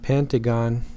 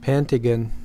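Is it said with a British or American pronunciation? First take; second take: American; British. First: It is said the American English way. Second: It is said the British English way.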